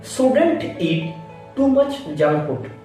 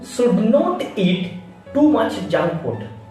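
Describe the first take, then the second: First: The words are squeezed into one contracted form. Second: The words are said in full, uncontracted. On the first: The speaker calls it right. "Not should not. That is shouldn't" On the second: The speaker calls it wrong.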